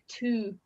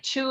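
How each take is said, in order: First: The word starts with a t-like sound. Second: The word starts with a ch-like sound. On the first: The speaker calls it right. "it would be closer to a T sound. Uh, so it's like two" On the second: The speaker calls it wrong. "Italians uh, pronounce it like two as well, but it's um, that would be written like um, C H, like chocolate"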